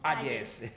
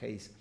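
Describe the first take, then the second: First: The name is said in a Paraguayan Spanish way. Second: The name is said in an English way. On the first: The speaker calls it wrong. "cariñosamente y en paraguayo le llamamos Ayes" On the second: The speaker calls it right. "el nombre se pronuncia Hayes"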